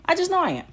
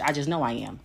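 First: "I just know I am" pitched much higher, with "know" leaned on hard; emphatic high repeat. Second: Said in the usual way. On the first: Shown as a demonstration. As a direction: say it again, higher and more certain, hitting "know".

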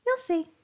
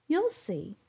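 First: Teasing, playful tone; coy. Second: Said in the usual way. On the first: A narrator's reading. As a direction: say it coyly, keeping a secret. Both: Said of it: "she replied coyly".

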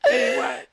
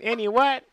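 First: Breathy whispered repeat. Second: Said in the usual way. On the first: Real, not acted. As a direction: whisper the question again.

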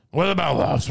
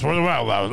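First: "What" hit hardest, falling at the end; stress on WHAT. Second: "about" hit hardest, lower pitch, falling; stress on ABOUT. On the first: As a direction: punch "What" in "What about Laos?". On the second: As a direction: lean on "about" in "What about Laos?". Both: Shown as a demonstration. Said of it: "I'm not good impressions".

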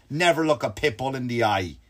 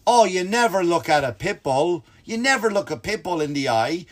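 First: Said in the usual way. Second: Blaming. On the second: Retold or imitated. Corey blames visitor for looking at the dog, mock scolding. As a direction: stretch it out like a lecturing friend. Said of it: "like it's my fault".

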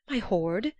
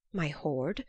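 First: "My hoard?" pitched up, rising in mild outcry; a touch of a dwarf's indignant shout; mild shouted question. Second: First, held-back disbelieving "My hoard?"; understated dwarf's outcry. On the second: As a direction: ask "My hoard?" with restraint, voice lifting at the end. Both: A narrator's reading. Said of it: "the dwarf shouted".

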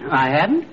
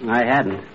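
First: Rising tune on "hadn't"; doubtful question. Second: Falling tune on "hadn't"; flat denial. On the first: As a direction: turn "hadn't" into a question, pitch climbing. Then doubts his own denial. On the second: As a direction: say "hadn't" as a statement, low and falling. Denies not having helped move piano. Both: Acted.

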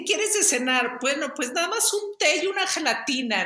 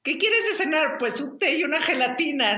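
First: Mocking grandma. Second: High, giggling mock mother voice; laughing mock of mom. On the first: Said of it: "hacía burla de que mi mamá". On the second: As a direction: tease her mom through laughter. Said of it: "mi hermana empezó a". (burla de mamá entre risas)

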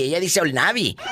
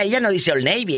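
First: Put-on "Old Navy" said Spanish-style, "ol NAH-bee"; Spanish pronunciation. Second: Put-on "Old Navy" said the English way, "oln eibi"; English pronunciation. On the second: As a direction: say "Old Navy" like an American, OLD NAY-vee. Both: Shown as a demonstration.

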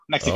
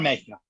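First: Said in the usual way. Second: "Mexico" said the Spanish way, "MEH-hee-ko"; soft h, Spanish "Mexico"; Spanish pronunciation. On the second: Shown as a demonstration. Naming his wife's home as "Mexico" in Spanish. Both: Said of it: "She's from Yucatan".

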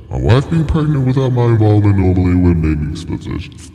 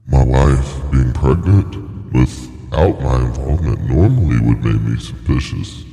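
First: Higher, quicker run at the line; raised-voice retake. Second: Said in the usual way. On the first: Shown as a demonstration. Performer retrying a line one more time, high-pitched retake.

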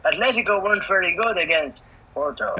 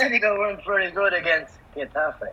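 First: Flat announcer robot read; deadpan template voiceover; robotic voice. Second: Flat robotic voiceover read; machine-like template announcement. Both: Pretend. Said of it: "And the robotic voice".

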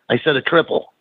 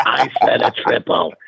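First: Lightly imitated Boston accent. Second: Slow, put-on Boston growl of insistence; a stubborn Boston barfly doubling down, slowly; Boston drinker repeating his order, slower; imitated Boston accent. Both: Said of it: "in that Boston accent".

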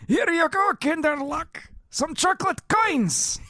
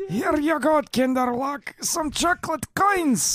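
First: High old cartoon grandpa; croaky old grandpa with overtone; Grandpa Boris voice. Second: Put-on high old grandpa with throat overtone; doubled pitch grandpa wheeze; Grandpa Boris voice. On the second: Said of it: "demonic throat thing going on".

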